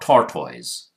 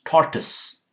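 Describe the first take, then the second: First: The last syllable has a full vowel, not uh. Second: The last syllable has a weak uh sound. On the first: The speaker calls it wrong. "it's not tortoise" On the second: The speaker calls it right. "It's tortoise"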